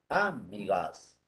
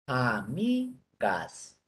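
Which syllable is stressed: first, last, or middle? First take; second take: first; middle. First: The stress is on the first syllable. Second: The stress is on the middle syllable. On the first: The speaker calls it wrong. "Si fuera como de drújula" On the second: The speaker calls it right. "sílaba mi"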